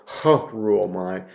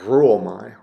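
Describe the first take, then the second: First: The word starts with a breathy h sound. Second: The word starts with a trilled r sound. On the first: The speaker calls it wrong. "you don't go" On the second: The speaker calls it right. "give a little bit of a trill to the R"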